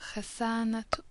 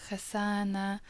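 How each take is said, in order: First: The word ends with an audible t sound. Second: The word ends in a plain a vowel. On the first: The word is joined to a following noun. "So you can hear the T" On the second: The word stands alone. "Just an a sound at the end"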